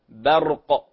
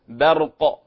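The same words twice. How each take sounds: First: The b is light and thin. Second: The same.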